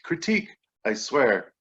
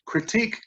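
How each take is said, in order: First: Said in the usual way. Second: High chirped rising critique; bird chirp. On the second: Retold or imitated. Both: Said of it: "this bird chirps the word".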